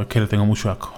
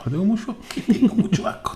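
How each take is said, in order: First: Said in the usual way. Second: High, breathy laugh through words; laughing whisper. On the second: Real, not acted. Repeated, laughing.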